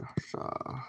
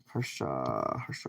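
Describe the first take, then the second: First: Hushed whispered name. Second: Lower, slow musing over the name; drawn-out name. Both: Pretend. Plays with a viewer's name.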